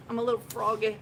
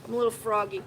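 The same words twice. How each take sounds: The two takes are said the same way.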